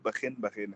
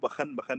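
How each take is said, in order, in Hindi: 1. kh के बाद का स्वर छोटा 'i' है। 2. kh के बाद का स्वर छोटा 'a' है। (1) "सही जो इसकी प्रोनाउंसिएशन है ... बल्कि बखिन बखिन है" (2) "वो बखन बखन नहीं है"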